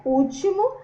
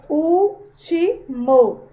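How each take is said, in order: First: Said in the usual way. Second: "Último" very slowly split as úl-ti-mo; syllable by syllable. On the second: Shown as a demonstration. Teacher separates the word for pupils, "Último" syllable by syllable. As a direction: break "Último" into three loud, drawn-out syllables. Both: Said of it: "Se a gente for separar".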